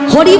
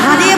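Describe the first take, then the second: First: The name is said in a Bengali accent. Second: The name is said in a Western accent. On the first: The speaker calls it right. "হরি বলতে পারে না" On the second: The speaker calls it wrong. "হারে বলে"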